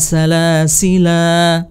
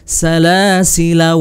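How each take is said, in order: First: The word ends on a long final vowel. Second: The final vowel is short, running into the next word. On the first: The reciter stops at this word. "Boleh salasil atau" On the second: The reciter continues into the next word. "tidak panjang la-nya ya"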